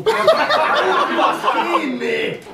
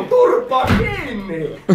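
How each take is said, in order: First: Much higher, very slow mock command, laughing; laughing, high, dragged-out parody shout; hammed-up drill yell. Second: Slow, drawn-out mock command; slow parody of a shouted order; mock drill yell. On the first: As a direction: stretch the order out high like a squeaky sergeant. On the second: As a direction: bark it like an army sergeant, slowly. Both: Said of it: "Huutaa ja kiroilee".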